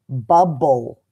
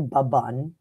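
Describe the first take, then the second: First: The word ends with a clear L sound. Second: The word ends with an N sound. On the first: The speaker calls it right. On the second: The speaker calls it wrong.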